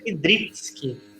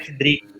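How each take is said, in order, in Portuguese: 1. O nome é pronunciado com a terminação polonesa. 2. O nome é pronunciado com uma terminação portuguesa. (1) "o correto mesmo era Kidricki, que é em polonês" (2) "em português é Kidrick"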